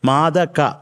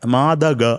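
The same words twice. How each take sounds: First: The last consonant is a voiceless k sound. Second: The last consonant is a voiced g sound. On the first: The speaker calls it right. "മാത കഴിഞ്ഞാൽ പിന്നെ കായാണ്, ഗായല്ല" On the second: The speaker calls it wrong. "മാതക അങ്ങനെ ആവരുത്"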